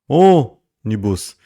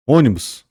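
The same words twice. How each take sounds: First: "ônibus" called out loud, first Ô held very long; lengthened stressed syllable. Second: Said in the usual way. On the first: Shown as a demonstration. Teacher shows class the tonic syllable, stretched calling-out. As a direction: drag out the Ô of "ônibus" as if hailing someone. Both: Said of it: "um alongamento na pronúncia".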